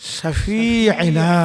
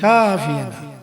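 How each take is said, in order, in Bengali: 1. প্রথম ব্যঞ্জনের পরের স্বরটি ছোট রাখা হয়। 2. প্রথম ব্যঞ্জনের পরের স্বরটি টেনে পড়া হয়। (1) "সিনের মধ্যে আলিফ হতে পারে না মদ হতে পারে না" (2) "তারা বলে কি নবিয়ানা শাফিয়ানা জাহিল"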